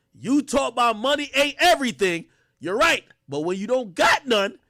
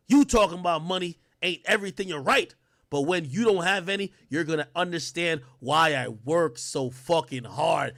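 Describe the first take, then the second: First: Higher, louder, emphatic delivery; mock tough dad; hyped father reread. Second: Said in the usual way. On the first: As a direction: deliver it like the father laying down the law. Rereading the line.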